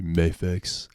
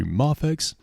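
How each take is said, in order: First: Mafex with a long A as in "may"; "MAY-fex" pronunciation. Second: Mafex with an open "ah" in the first syllable; "MAH-fex" pronunciation. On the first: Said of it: "You say Mafex". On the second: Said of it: "I say Mafex". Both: Shown as a demonstration.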